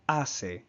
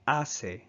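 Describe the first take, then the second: First: The middle consonant is an s sound. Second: The same.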